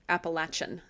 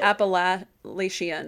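First: The middle consonant is a 'ch' sound. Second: The middle consonant is an 'sh' sound. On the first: This is the family's Southern Appalachian way of saying it. "always would say it like Appalachian. So you have got that ch" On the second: This is how people further north say it. "I'm having trouble saying it the other way"

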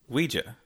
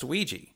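First: The word is said the British way. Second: The word is said the American way. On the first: "in the UK, it is pronounced Ouija" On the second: "in the US, it is pronounced Ouija"

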